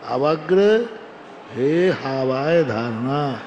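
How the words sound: There is a short pause after avagra.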